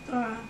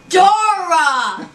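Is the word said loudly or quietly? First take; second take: quietly; loudly. First: It is said quietly and plainly. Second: It is said loudly and with energy.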